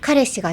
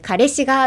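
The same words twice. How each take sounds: First: It is said with standard Japanese intonation. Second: It is said with casual gal-style intonation. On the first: "じゃなくて" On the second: "あえて崩してるみたいな感じ"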